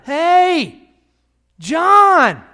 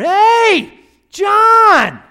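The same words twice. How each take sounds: First: The name is called out louder. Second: The name is called out very loudly.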